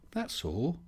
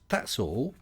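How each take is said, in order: First: "That's all" up high and soft; softer, higher repeat; higher, softer character voice. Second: Said in the usual way. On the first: Shown as a demonstration. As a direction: echo it back in a put-on voice.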